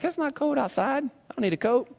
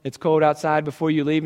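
First: Put-on higher, softer bratty kid retort; mimicking son. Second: Said in the usual way. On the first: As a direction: toss it back like a dismissive kid. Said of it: "And he's like".

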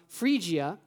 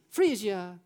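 First: Said in the usual way. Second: Italian accent. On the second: Shown as a demonstration. Joking to the church that this is Italian, Italian accent. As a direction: say "Phrygia" as if in Italian. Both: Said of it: "or you say in Italian".

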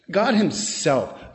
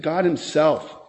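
First: Slow, weighty "God Himself", GOD leaned on; emphatic stress. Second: Said in the usual way. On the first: Shown as a demonstration. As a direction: dwell on "God Himself" to drive it home. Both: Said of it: "The words are emphatic".

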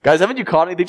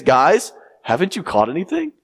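First: Same doubtful call, a bit fuller; expecting no answer. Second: Doubtful call, sure the answer is no; expecting no answer. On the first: Preacher repeating the stranger's question, doubtful. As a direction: ask again, certain they caught nothing. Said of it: "tone of expectancy of a negative answer". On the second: Preacher voicing the stranger on the shore, doubtful. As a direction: ask as if you already expect a no. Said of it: "there's a certain tone". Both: Shown as a demonstration.

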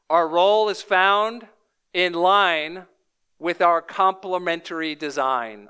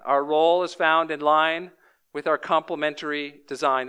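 First: Slow, each phrase set apart; slow emphatic. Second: Said in the usual way. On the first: Shown as a demonstration. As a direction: lay it out slowly with pauses.

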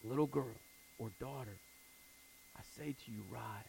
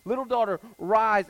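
First: Very soft and low, gentle; hushed tender command; tender whisper-soft call. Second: Loud, high proclamation; rousing loud call; ringing command. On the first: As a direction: coax a child awake. Jesus wakes the dead girl. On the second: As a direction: call her up from death. Jesus raises the girl, preached. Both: Acted.

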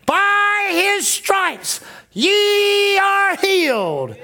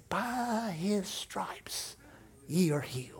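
First: Very slow, high, loud proclamation; spirit's voice shouting the promise over the fear; triumphant shout. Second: Slow, breathy whisper, much softer; a faint whispered promise from deep inside; tiny whisper. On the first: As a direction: boom the scripture out as a victory cry. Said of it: "the voice in her spirit was saying". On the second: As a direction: barely breathe the scripture like a tiny inner voice. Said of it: "a little bitty voice that said". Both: Retold or imitated.

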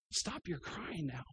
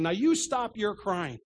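First: "Stop your crying now" hushed and slow, much softer, tender; barely above a whisper, kind but sure; gentle command. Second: "Now you stop your crying" slow and firm, every word weighted like a scolding; stern rebuke. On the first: Acted. Jesus to the weeping widow, soft and slow. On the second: Retold or imitated. Pastor voicing what he'd never say to the grieving, stern slow rebuke. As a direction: deliver it as a firm rebuke, slowly. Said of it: "I've never once said to a person".

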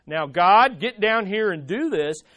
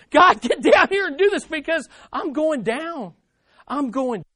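First: Low, firm mock demand, hard on "God"; measured command that drops away at the end. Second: High, loud, urgent plea; acted panic, pitched up and pressing; desperate. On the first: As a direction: order it like someone in charge. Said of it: "from a position of demand". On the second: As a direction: beg for rescue as if going under. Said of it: "from a place of desperation". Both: Shown as a demonstration.

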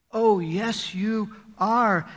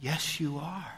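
First: "yes, you are" with weight on "are"; emphatic insistence on "are". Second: Said in the usual way. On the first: Shown as a demonstration. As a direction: land hard on "are" with a falling tune. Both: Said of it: "with an emphatic".

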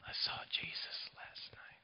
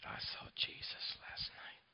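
First: Soft unvoiced whisper, dying man. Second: Slow faint unvoiced whisper; whisper again, slower. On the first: Dying Leon whispers to the preacher from his hospital bed, a faint whisper. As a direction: breathe it barely audible from a deathbed. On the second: Dying Leon repeats his words to the preacher, a slow faint whisper. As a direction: repeat it barely audible, drawn out. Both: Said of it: "he whispers to me".

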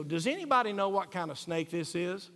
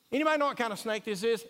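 First: Asking about a snake. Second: Higher and louder, fast, curious asker; a hammed-up online asker; mock online question. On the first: Retold or imitated. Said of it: "take a picture of a snake and go". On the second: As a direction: rattle it off like a quick Facebook post. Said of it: "You see what I'm talking about?".

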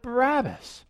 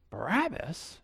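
First: A mild mock shout of the name, pitched up; crowd shout. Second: Soft, disbelieving question, falling away; incredulous echo. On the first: Crowd answering Pilate, a mild mock shout. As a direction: call the name out like a crowd, not too hard. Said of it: "they shouted". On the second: Retold or imitated. Pilate hearing the crowd's pick, quiet disbelief. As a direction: repeat the name quietly, as if you can't believe it.

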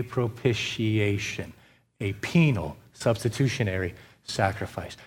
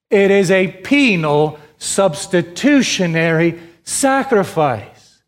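First: "a penal substitutionary sacrifice" dropped low and much softer; low, hushed restatement of "penal substitutionary sacrifice"; soft low conclusion. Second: Each word drawn out slowly, penal pressed hard; "penal substitutionary sacrifice" spelled out slow and weighty for the hearers; slow emphatic stress. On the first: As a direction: settle the phrase down quietly, like a final verdict. Preacher closes point softly. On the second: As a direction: stretch "sacrifice" slowly to a falling close. Preacher stresses key doctrine. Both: Acted.

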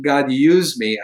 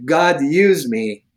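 First: Said in the usual way. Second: Slow earnest prayer. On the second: Shown as a demonstration. Showing the host how to pray, slow and earnest. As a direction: offer yourself slowly, meaning every word. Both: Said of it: "you just say".

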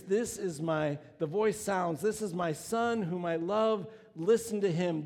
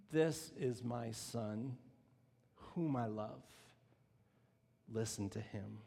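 First: Louder, proclaimed voice of God; preacher repeating God's words, declaimed. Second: Low, slow, soft voice from the cloud; God speaking to the disciples, low and slow. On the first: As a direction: declare it over the crowd. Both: Acted.

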